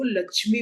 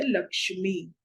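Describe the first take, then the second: First: लक्ष्मी as "lachhmi"; लक्ष्मी said with chh; common mispronunciation. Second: लक्ष्मी with a full k-sh cluster; लक्ष्मी with क्ष, not छ; correct pronunciation. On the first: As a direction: replace ksh with छ in लक्ष्मी. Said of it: "कभी-कभी उसको लक्ष्मी बोल दिया". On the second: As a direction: say लक्ष्मी as "lakshmi". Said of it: "शब्द है". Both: Shown as a demonstration.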